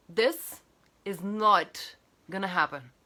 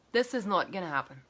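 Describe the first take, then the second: First: "this" set apart, then "not" leaned on; stress on this. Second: Said in the usual way. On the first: Shown as a demonstration.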